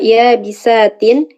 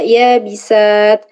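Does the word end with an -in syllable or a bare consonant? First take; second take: -in syllable; bare consonant. First: The word ends with an -in syllable. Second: The word ends on a bare consonant. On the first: The reader continues without stopping. "ketika wasol dibaca" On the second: The reader stops on this word. "ketika wakof dibaca"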